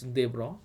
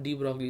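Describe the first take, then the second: First: The name sounds like 'Debra'. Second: The name sounds like 'de Broglie'. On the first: The speaker calls it right. "it is pronounced as Debra" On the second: The speaker calls it wrong. "It's not de Broglie"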